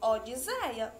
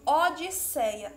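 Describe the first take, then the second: First: The middle consonant is a buzzing z sound. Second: The middle consonant is a hissing s sound. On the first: The speaker calls it wrong. "iria ficar com o som de Z" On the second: The speaker calls it right. "continuar com o som de S"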